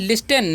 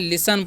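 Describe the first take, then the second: First: The t sound is pronounced in the middle. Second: The t sound is silent in the middle. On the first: The speaker calls it wrong. "लिस्टन नहीं" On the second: The speaker calls it right. "यहाँ पर T silent होता है"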